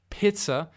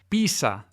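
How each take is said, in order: First: It is said with a German accent. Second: It is said with a Spanish accent. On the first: "in tedesco" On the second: "da alcuni, non tutti, parlanti di spagnolo"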